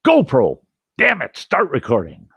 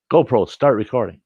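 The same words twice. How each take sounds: First: Higher, louder near-yell at the camera; retold near-yell of an angry camper; almost yelling. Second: Said in the usual way. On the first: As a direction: nearly shout the command in frustration. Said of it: "I'm almost yelling".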